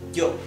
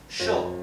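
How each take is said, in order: First: It starts with a firm, j-like consonant. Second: It starts with an sh sound. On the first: "unsticking the back of your tongue from your back upper palate" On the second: "pronounced like the English S H"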